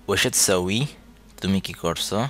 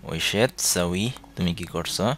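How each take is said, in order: No difference in how they are said.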